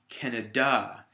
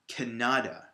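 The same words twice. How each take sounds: First: The stress is on the last syllable. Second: The stress is on the middle syllable. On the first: "if I put it at the end on the D A" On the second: "more of an emphasis or a strength on that middle syllable"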